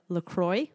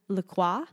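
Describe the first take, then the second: First: The name is pronounced the English way. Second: The name is pronounced the French way. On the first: "instead of" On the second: "pronounce it in the French manner"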